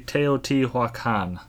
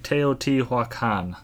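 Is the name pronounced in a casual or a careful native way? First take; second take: careful native; careful native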